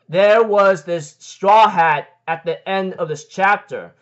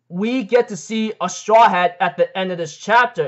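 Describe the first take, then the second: First: Slow and deliberate, leaning on Straw Hat; slow emphatic restatement. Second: Said in the usual way. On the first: Real, not acted. To viewers, stressing the Straw Hat reveal slowly. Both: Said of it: "yes, as I said".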